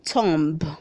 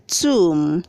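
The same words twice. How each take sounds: First: The word ends with an audible b sound. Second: The word ends in m with no b sound. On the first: The speaker calls it wrong. "Please don't say tomb" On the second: The speaker calls it right. "The B is silent"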